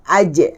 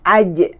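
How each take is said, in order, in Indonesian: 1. Konsonan terakhir dilepaskan dengan memantul. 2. Konsonan terakhir dilepaskan dengan memantul.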